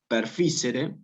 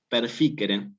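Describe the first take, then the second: First: The c is soft, not a k sound. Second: The c is hard, like a k sound. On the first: The speaker calls it wrong. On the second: The speaker calls it right.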